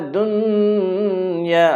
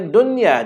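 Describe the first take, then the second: First: The n is held with a nasal hum. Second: The n is short without a nasal hum. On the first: The speaker calls it wrong. "jangan baca fi hazihi dunya, dunya. Ha, tidak baca macam tu" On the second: The speaker calls it right. "Kita baca dunya aja"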